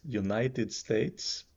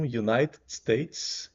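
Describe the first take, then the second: First: States stressed, slow. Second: UNITED said slowly with the stress up front. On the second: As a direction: lean on "United", then "States". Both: Shown as a demonstration. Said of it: "states é pronunciado numa emissão só".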